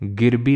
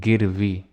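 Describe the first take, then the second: First: The middle consonant is a b sound. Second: The middle consonant is a v sound. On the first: The speaker calls it wrong. "जहाँ तो तुम्हें बा वाह बोलना चाहिए बा बोल रहे हो" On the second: The speaker calls it right. "गिरबी नहीं गिरवी"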